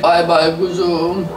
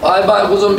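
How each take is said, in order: First: "Bay bay kuzum" stretched out slowly, rising at the end; slow drawn-out goodbye. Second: Said in the usual way. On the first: Shown as a demonstration. Saying goodbye to viewers, slow and drawn out. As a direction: draw out every syllable of "Bay bay kuzum" lazily.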